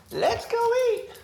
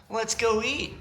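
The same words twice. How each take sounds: First: Squeaky high pet voice, drawn out; high, slow sing-song dog call. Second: Said in the usual way. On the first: Acted. Owner calls the dogs to dinner in a high slow sing-song.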